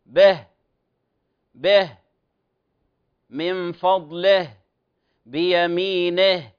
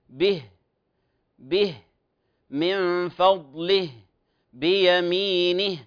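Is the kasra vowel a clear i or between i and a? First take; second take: between; clear i. First: The final vowel sounds between i and a. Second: The final vowel is a clear i sound. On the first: The speaker calls it wrong. "يقف عليها بين الكسرة والفتحة" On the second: The speaker calls it right. "الأصل نقول به من فضله بيمينه من غير مبالغة"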